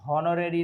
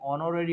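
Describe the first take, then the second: First: The word begins with an h sound. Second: The word begins with a vowel sound. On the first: The speaker calls it wrong. "यहाँ हॉनोरेरी नहीं होगा" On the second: The speaker calls it right. "बल्कि ऑनोरेरी होगा, एच silent होगा"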